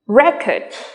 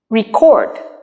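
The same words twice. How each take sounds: First: The stress is on the first syllable. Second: The stress is on the second syllable. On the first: It is used as a noun. "When they are nouns, you stress on the first syllable" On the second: It is used as a verb. "When they are verbs, you stress on the second syllable"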